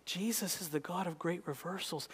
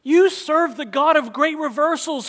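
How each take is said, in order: First: Quiet, intimate echo of the line; hushed. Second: Loud, high proclaiming call; booming pulpit declaration; loud preaching. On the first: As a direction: bring it down to a near hush. Hushed repeat of preached line. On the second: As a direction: throw it out to the whole room. Loud preached line, then hushed repeat. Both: Acted.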